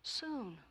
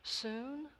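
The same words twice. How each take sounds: First: "Soon" higher, falling as an answer; prayerful. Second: "Soon" as a higher, rising question; inquiring. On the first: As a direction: answer "Soon" with a pleading fall. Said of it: "prayed this monk". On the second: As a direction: echo "Soon" back as a query. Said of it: "inquired God". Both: A narrator's reading.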